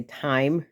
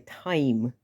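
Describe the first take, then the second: First: Said in the usual way. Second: Time with the I really enunciated; U P accent on time, full I; Yooper long I. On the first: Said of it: "I say time". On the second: Shown as a demonstration. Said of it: "really enunciate the I".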